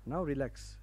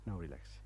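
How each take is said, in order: First: Said in the usual way. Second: Softer and lower, gently settling the room; quiet relaxing instruction; soft soothing cue. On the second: Shown as a demonstration. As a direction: ease them down into calm. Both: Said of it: "Okay, that's enough".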